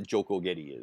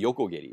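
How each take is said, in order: First: The word begins with a J sound. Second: The word begins with a Y sound. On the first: The speaker calls it wrong. "I don't know what a Jokogedi is" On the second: The speaker calls it right. "It's supposed to be Yokogedi"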